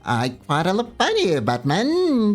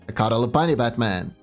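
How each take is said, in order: First: It is said in a put-on Joker voice. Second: It is said in the speaker's natural voice.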